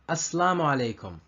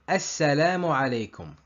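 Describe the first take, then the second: First: The s is single, not doubled. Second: The s is doubled and the first a is long. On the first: The speaker calls it wrong. "the shadda of the sin is replaced with the sukoon" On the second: The speaker calls it right. "The right way is"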